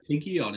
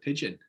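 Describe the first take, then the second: First: The word is pronounced letter by letter, as spelled. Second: The word is pronounced the usual spoken way. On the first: The speaker calls it wrong. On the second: The speaker calls it right.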